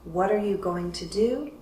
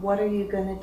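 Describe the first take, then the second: First: Going to is said in full. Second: Going to is reduced to gonna.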